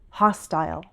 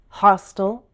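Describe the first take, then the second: First: The ending is a long I with dark L. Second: The ending is a schwa with dark L.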